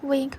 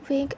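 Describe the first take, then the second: No difference in how they are said.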